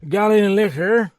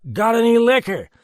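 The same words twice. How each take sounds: First: Put-on high, loud drunk asking for liquor; drunken demand. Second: Put-on high, loud drunk, stress on liquor; drunken demand. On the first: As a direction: demand a drink, sloppily. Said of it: "he demanded interestedly". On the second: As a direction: press for liquor again. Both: A narrator's reading.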